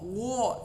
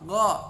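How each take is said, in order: First: The vowel is a rounded o sound. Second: The vowel is an open a sound. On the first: The speaker calls it wrong. "bukan gho gho" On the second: The speaker calls it right. "tapi gha gha"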